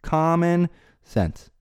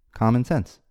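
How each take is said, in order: First: Common sense drawn out very slowly, higher, each word leaned on; slow emphatic stress. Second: Said in the usual way. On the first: Shown as a demonstration. Podcaster hammering his point to listeners, slow stressed Common sense. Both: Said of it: "It's com-, common sense".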